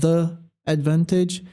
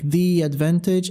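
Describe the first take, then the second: First: The words are said separately without linking. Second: The words run together with linked sounds. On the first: The speaker calls it wrong. "instead of" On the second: The speaker calls it right. "connecting the sounds"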